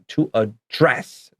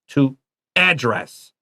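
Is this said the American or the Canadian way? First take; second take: Canadian; American. First: It is said the Canadian way. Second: It is said the American way. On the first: "I say this word like Canadians do" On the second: "I see a lot of Americans say it as"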